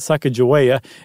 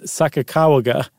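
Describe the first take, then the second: First: The third syllable is pronounced with a 'j' sound. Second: The third syllable is pronounced with a hard 'g'. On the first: The speaker calls it wrong. "it's not Sacagawea ... it's not ja" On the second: The speaker calls it right. "it's ga"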